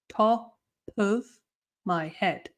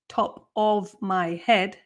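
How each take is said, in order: First: The word 'of' is reduced to a schwa. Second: The word 'of' is said with a full vowel. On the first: "the of is going to become an uh sound, a schwa sound" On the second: "instead of saying"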